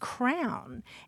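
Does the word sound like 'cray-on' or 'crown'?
crown. It is said as one syllable, like crown. It reflects a New Jersey or New York background. "a whole swath of the country that uses the pronunciation crown"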